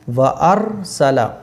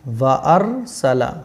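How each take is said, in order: Both takes have the same delivery.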